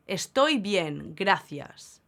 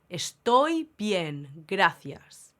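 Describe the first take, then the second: No difference in how they are said.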